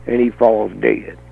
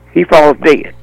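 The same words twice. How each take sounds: First: Said in the usual way. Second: "falls" hit harder, the whole line louder; emphatic repeat. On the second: Shown as a demonstration. Hammering home to the crowd that he falls dead. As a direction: punch "falls" to drive it home.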